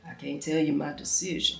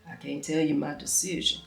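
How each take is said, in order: First: It is said in a put-on deep masculine voice. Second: The same.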